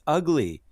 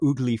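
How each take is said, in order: First: The word begins with an uh vowel. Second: The word begins with an oo vowel. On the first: The speaker calls it right. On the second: The speaker calls it wrong.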